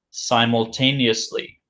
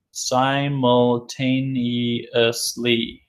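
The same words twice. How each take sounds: First: Said in the usual way. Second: Simultaneously drawn out very slowly, syllable by syllable; teacher stretching out Simultaneously; slow model reading. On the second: Shown as a demonstration. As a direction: sound out Simultaneously slowly for the class.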